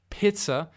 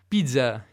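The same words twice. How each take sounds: First: It is said with a German accent. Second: It is said with a French accent. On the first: "in tedesco" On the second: "in francese"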